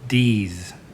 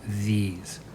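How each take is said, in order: First: The word begins with a d sound. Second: The word begins with a voiced th sound.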